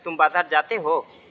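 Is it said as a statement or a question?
question. It is said as a question.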